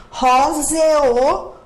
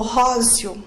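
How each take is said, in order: First: "Róseo" slowly in three syllables, ró-ze-o; overcareful "Róseo", final vowels split apart as ze-o; pronounced as hiatus. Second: "róseo" said as "rózio", ending in one glide; natural "róseo", with the E turned into an I sound. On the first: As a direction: sound out a full E and O in "Róseo". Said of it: "Como que você pronuncia?". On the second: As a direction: run the last vowels of "róseo" together as "io". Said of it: "O E tem som de I". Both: Shown as a demonstration.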